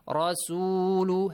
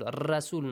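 First: The Ra is pronounced with a heavy, full sound. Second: The Ra is pronounced with a light, thin sound. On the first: The speaker calls it right. "heavy sound" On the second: The speaker calls it wrong. "Don't say"

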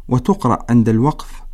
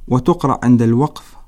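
Both takes have the same delivery.

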